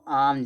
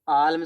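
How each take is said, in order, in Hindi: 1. l की आवाज़ silent है। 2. l की आवाज़ बोली जाती है। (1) "इसमें यल साइलेंट होता है" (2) "इसको आलम से नहीं पढ़े"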